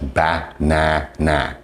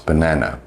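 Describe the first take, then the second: First: Each syllable is sounded out with full vowels. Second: The word is said smoothly with reduced vowels. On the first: The speaker calls it wrong. "you're probably going to pronounce it as ba-na-na, which it's not" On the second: The speaker calls it right. "it's banana"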